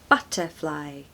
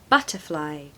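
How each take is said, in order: Both takes have the same delivery.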